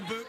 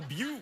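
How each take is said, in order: First: The word has its ordinary short vowel. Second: The vowel is stretched into a long 'oo'. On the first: "You can't even call it a book" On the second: "it's that fancy"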